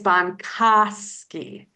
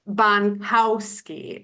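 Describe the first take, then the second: First: The middle syllable does not sound like cow. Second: The middle syllable sounds like the word cow. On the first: The speaker calls it right. "it's Bonkowski" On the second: The speaker calls it wrong. "the word cow does not appear in Ariel's last name. It's not Bonkowski"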